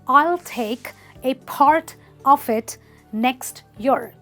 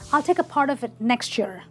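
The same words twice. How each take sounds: First: Each word is pronounced fully and separately. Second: The words run together with sounds merged. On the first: "What he actually wanted to say is" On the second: "a native speaker would say something like"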